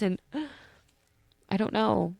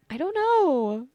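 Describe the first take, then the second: First: Said in the usual way. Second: High, slow, drawn-out sleepy sigh; sleepy drawl. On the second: Real, not acted. Podcaster trailing off sleepily after sharing something vulnerable. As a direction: let the words sag out, half asleep. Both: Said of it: "I'm still sleepy".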